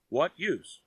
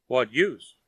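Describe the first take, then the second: First: "use" falling, quieter and resigned; softer echo. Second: "use" hit firmly, first asking; emphatic. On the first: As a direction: let "What use?" fade as a shrug. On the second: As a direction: USE stressed, a bit louder. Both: A narrator's reading. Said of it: "Lin repeats his question".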